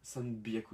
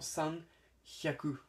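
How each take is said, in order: First: The second word starts with a b sound. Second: The second word starts with an h sound. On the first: The speaker calls it right. "Le H devient un B" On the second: The speaker calls it wrong. "devrait se dire logiquement san hyaku"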